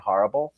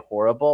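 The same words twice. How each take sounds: First: It is said in an upstate New York accent. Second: It is said in a general West Coast accent. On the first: "things that I say that are upstate New York" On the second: "I don't say horrible"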